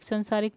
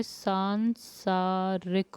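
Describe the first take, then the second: First: संसारिक with a short first vowel, said as the error; wrong form. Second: सांसारिक drawn out very slowly, long आ in the first syllable; slow correct form. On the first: Teacher telling students संसारिक is wrong. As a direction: read संसारिक as the mistake. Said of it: "संसारिक नहीं होता है". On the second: Teacher showing students the correct सांसारिक slowly. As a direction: stretch सांसारिक to show the long आ. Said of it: "सांसारिक होता है". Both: Shown as a demonstration.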